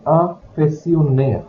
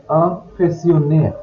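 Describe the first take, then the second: No difference in how they are said.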